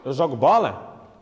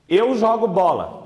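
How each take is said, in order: First: It is a question, rising at the end. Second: It is a plain statement with a flat ending.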